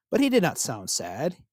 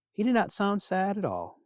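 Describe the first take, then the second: First: He lifted with a rising tune; stress on he. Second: Did pitched higher and falling; stress on did. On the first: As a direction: lean on "he" so it rises. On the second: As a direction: hit "did" high, then let it fall. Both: A narrator's reading. Narrator stresses the contrast.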